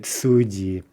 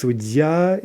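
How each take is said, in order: First: "sudyi" with stress on the first syllable; "sudyi", stressed up front; shifted stress. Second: "sudya" with stress on the final syllable; "sudya", stressed at the end. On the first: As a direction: say "sudyi" leaning on SU. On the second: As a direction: say "sudya" leaning on the last syllable. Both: Shown as a demonstration. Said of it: "here we get the stress shift".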